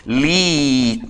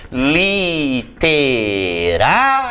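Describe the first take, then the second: First: Literária broken into li-te-rá-ri-a, splitting the final diphthong; wrong split. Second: Literária said slowly as li-te-rá-ria, syllable by syllable; syllables split. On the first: Teacher mimicking the students' mistake, broken syllables. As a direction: chop Literária into separate syllables, breaking ri-a apart. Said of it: "tem gente que separa essas palavras assim". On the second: Teacher showing the correct split, slow syllables. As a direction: spell out Literária in slow syllables keeping the ria diphthong together. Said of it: "Eu vou separar assim".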